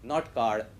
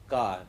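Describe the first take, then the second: First: The final R sound is heavy and strong. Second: The final R sound is light and soft. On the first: The speaker calls it wrong. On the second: The speaker calls it right. "it is kept very light"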